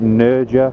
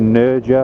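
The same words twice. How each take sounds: First: The name is said with an amateurish, anglicized pronunciation. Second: The name is said with an amateurish, anglicized pronunciation.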